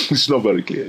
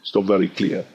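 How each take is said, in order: First: Laughing it out, quicker. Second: Said in the usual way. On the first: Real, not acted. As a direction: chuckle through the words.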